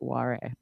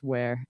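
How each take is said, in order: First: Said as two syllables, like Japanese 'wa-re'. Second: Said as one English syllable, like 'wear'. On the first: The speaker calls it wrong. "and not Ware" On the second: The speaker calls it right. "I think her last name is Ware"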